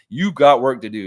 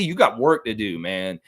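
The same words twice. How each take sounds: First: Emphatic repeat. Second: Said in the usual way. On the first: Real, not acted. Repeated to the fantasy rival.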